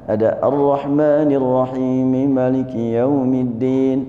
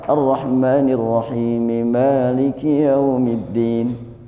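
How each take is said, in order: First: The first vowel of Maliki is kept short. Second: The first vowel of Maliki is held long. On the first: It follows the written text. "kalau dibaca pendek" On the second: It follows what was heard from the Prophet. "Kalau sekiranya dibaca panjang"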